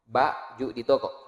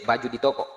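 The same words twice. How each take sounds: First: "Baju di toko" with a break after "Ba"; syllables separated. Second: Said in the usual way. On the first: Shown as a demonstration. Teacher recalling the qalqalah letters, "Baju" broken into syllables. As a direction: split "Baju" into two distinct beats, then "di toko". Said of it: "huruf kol-kola". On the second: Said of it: "kol-kolanya mantul".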